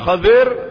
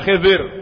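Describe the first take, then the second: First: The first vowel of the name is 'a'. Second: The first vowel of the name is 'i'. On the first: "Bisa dibaca Khadir" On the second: "bisa dibaca Khidir"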